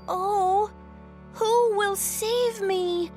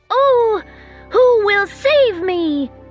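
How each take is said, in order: First: It is said a little louder. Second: It is said as loudly as possible.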